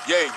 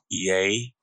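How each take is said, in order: First: It is said at normal, quicker speed. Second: It is said more slowly.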